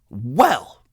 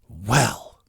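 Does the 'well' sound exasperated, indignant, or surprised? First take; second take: indignant; exasperated. First: It sounds indignant, like saying how dare you. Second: It sounds exasperated and fed up.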